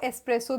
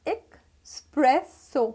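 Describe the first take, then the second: First: There is no k sound before the s. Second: A k sound comes before the s. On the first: The speaker calls it wrong. "Which is wrong pronunciation" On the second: The speaker calls it right. "Correct pronunciation"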